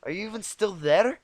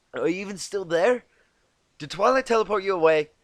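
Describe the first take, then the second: First: Annoyed. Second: Higher, louder irritated call; annoyed. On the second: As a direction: snap out a questioning jab. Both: Acted. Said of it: "quickly gave way to annoyance".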